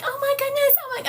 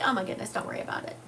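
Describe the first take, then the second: First: High-pitched, louder fretting nurse; flustered sweet nurse. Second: Casual reassurance. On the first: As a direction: imitate a dismayed nurse, pitched way up. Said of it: "the poor sweet nurse was like". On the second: Patient telling the nurse not to worry, quick casual reassurance. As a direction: wave it away fast and easy. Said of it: "I was like". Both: Retold or imitated.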